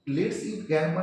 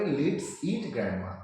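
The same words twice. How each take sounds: First: Said in the usual way. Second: "Let's eat" slowed, break, then "grandma"; very slow, a comma pause before grandma. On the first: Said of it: "এটা কিন্তু ঠিক ইংরেজি নয়". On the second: Shown as a demonstration. Teacher shows students the comma as a slow pause. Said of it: "actual হবে".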